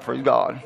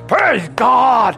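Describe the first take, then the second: First: It is said quietly and half-heartedly. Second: It is said loudly and with energy. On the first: The praise is lukewarm and unconvinced. The speaker calls it wrong. "he didn't do it that way" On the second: The praise is wholehearted and confident. The speaker calls it right. "They said with a loud voice"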